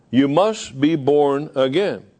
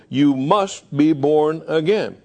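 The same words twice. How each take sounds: First: Slow, stressed "must"; emphatic. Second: Slow with "must" stressed; emphatic quote. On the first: Shown as a demonstration. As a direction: press hard on "must" in "You must be born again". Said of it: "states emphatically". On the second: Acted. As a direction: land on "must", slowly. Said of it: "And he says".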